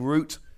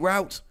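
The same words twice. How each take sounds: First: The word is pronounced the British way. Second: The word is pronounced the American way. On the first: "I am British and I am going to be saying Route" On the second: "Americans say Escape Route"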